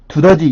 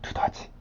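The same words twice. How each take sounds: First: The word is said in a normal voice. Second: The word is said in a whisper. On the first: "두더지 이렇게 하지 않고" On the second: "귓속말로 할 때는"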